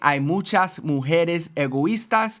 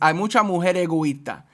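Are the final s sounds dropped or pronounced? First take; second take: pronounced; dropped. First: Every final s sound is clearly pronounced. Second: Final s sounds are dropped and words run together. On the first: It clearly sounds plural. "instead of saying" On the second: It sounds singular though it is plural. "not only do I remove all the S's, but I also seem to combine"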